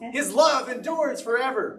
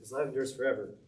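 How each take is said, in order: First: It is yelled out loudly, with energy. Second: It is said quietly, with little energy. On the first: The speaker calls it right. "yell it out" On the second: The speaker calls it wrong. "don't read it like"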